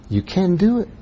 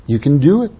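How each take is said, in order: First: Soft encouragement. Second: Said in the usual way. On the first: Shown as a demonstration. Encouraging the congregation again.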